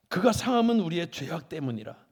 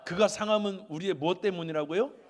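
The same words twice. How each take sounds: First: Loud, firm verse declaration; emphatic proclamation. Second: Loud question rising high at "때문이라고요"; quizzing question. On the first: Preacher giving congregation the verse, loud proclamation. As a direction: proclaim it loudly, falling at the end. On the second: Preacher quizzing congregation, loud rising tune on "때문이라고요". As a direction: lift "때문이라고요" to prompt an answer. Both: Real, not acted.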